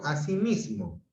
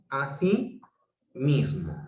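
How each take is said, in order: First: Said in the usual way. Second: Así mismo split by a clear pause; two separate words. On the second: Shown as a demonstration. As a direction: keep así and mismo apart. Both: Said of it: "cuando los juntos digo".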